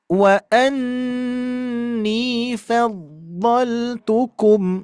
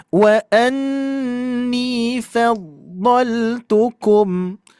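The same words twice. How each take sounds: First: The fa sound is light and thin. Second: The fa sound is light and thin.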